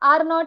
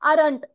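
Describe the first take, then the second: First: It is said as two separate full words. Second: It is said as one contracted word.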